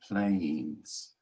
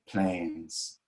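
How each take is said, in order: First: The vowel glides from 'ay' toward 'ee'. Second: The vowel is one pure, unchanging sound. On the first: "instead of an American saying planes" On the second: "we use the pure A. So we say planes"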